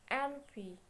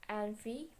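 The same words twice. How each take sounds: First: "envy" set apart, higher and deliberate; stressed example word. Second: Said in the usual way. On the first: Shown as a demonstration. Teacher showing a stress example, deliberate higher envy. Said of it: "Stress for first, weak syllable, last syllable". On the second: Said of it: "Stress for first, weak syllable".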